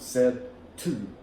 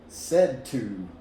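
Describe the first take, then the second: First: The D is said separately before the T. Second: The D disappears and the words join together. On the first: The speaker calls it wrong. "We don't speak like that in American English" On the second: The speaker calls it right. "the first sound just disappears and the two words join together"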